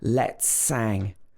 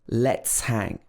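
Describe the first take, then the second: First: The h is dropped and the s links on. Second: The h at the start of hang is pronounced.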